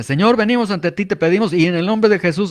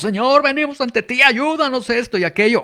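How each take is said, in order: First: Rhythmic, slightly raised prayer recital; a hint of a rehearsed preacher's chant; sing-song prayer cadence. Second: Hammed-up fervent prayer, pitched up high; mock emotional cry-out prayer. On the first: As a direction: recite it like a practiced, musical prayer formula. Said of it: "mi oración debe tener cierta cadencia". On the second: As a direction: mimic someone crying out to heaven to sound powerful. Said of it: "si levantamos la voz y gritamos".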